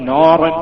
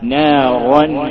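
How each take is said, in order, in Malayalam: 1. 'n'-ന് ശേഷമുള്ള സ്വരം വൃത്താകൃതിയിലുള്ള 'o' പോലെ തോന്നുന്നു. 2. 'n'-ന് ശേഷമുള്ള സ്വരം തുറന്ന 'a' പോലെ തോന്നുന്നു.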